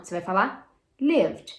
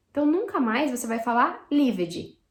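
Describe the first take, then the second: First: Lived said as one syllable ending in d; correct pronunciation. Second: Lived said as lived-ji with an extra syllable; mock the Brazilian lived-ji; wrong pronunciation. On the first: Teacher modelling the right form. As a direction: close lived on a plain d. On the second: Teacher imitating the common mistake. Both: Shown as a demonstration. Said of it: "Lived não".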